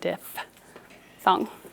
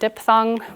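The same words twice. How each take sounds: First: The first syllable has an F sound. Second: The first syllable has a P sound. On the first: The speaker calls it right. "but it is actually diphthong" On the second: The speaker calls it wrong. "A lot of people erroneously pronounce it diphthong"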